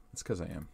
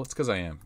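First: Much softer muttered repeat; muttered aside. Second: Said in the usual way. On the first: Real, not acted. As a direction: mumble it under your breath. Repeats line, second muttered aside.

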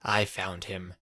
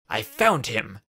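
First: Said in the usual way. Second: Louder, urgent insistence; more urgent. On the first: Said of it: "repeated in a more urgent voice". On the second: A narrator's reading. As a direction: press it on him, louder now. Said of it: "in a more urgent voice".

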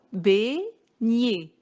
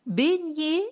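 First: "Beignet" split in two, bei, gnet, with a pause between; syllable by syllable. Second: Said in the usual way. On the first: Shown as a demonstration. Teacher counting out two syllables for pupils, syllable by syllable. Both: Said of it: "est composé de deux syllabes".

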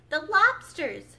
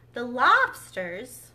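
First: Loud, high, drawn-out exclamation; shouting. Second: Loud, slow rising question; questioning outcry. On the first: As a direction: shout "lobsters" with a falling finish. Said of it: "shouted the Gryphon". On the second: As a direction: ask "lobsters" loudly, drawn out. Misread line before shouted retake. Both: A narrator's reading.

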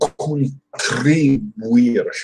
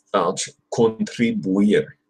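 First: 'Contribuir.' drawn out slowly, every syllable spelled out; slow careful retry. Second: Said in the usual way. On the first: Shown as a demonstration. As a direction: ease through 'Contribuir.' slowly, testing the tr. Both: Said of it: "that's tricky".

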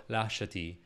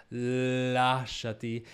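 First: "lasciati" with one short l, no lengthening; plain, undramatic "lasciati"; single consonant. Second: Slow operatic singing, consonants lengthened; sung with raddoppiamento. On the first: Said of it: "If we just do it as a single lasciati". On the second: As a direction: sing it with doubled opening consonants. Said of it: "single lasciati". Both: Shown as a demonstration.

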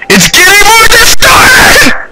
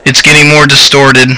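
First: Very high, drawn-out shriek; screaming like a woman. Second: Said in the usual way. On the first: Real, not acted. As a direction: scream it in real terror, voice leaping way up. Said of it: "I scream like a woman".

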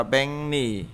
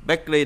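First: Benny said "baeng-ni"; assimilated reading. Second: Bentley said "baek-ri", with a k stop; as-spelled reading. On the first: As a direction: turn k to ng and r to n in Benny. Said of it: "đọc là Benny". (đọc Benny thành "beng-ni") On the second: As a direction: keep the k before r in Bentley. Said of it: "Bentley đọc là Benny". (đọc Bentley thành "béc-ri") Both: Shown as a demonstration.

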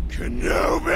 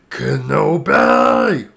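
First: High, rasping villain scream; Darth Maul. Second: Drawn-out, rising loud villain cry; Darth Maul. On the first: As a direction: screech the name like a villain. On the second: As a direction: stretch the name into a vengeful call. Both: Acted. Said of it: "that's my impersonation of the clip".

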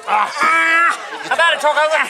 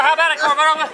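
First: Slow drawn-out shout. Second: Said in the usual way. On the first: Real, not acted. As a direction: yell it slowly at the screen. Yelling at the wrestling on TV.

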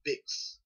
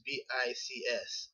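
First: "bics" read as a single word, like "picks" with a b; said as one word. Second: "B I C S" said letter by letter; spelled out letters. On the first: Student giving her own name for the acronym, "bics" as one word. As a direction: say "bics" as one short word, not letters. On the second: Student spelling the acronym aloud, "B I C S" letter by letter. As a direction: spell out "B I C S" one letter at a time. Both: Shown as a demonstration. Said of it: "or I call it bics".

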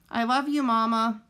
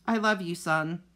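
First: Put-on high, tender young goose; a lightly voiced child's farewell; young gosling voice. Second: A lightly voiced gentle robot reply; robot mother voice. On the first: Gosling hugs his mother. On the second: Robot mother answers son. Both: A narrator's reading.

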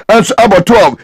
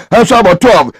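The two takes are said the same way.

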